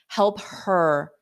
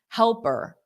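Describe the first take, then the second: First: The h sound of 'her' is clearly pronounced. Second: The h sound of 'her' is dropped entirely. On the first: "if I did pronounce the H" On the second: "It's easier to drop the H"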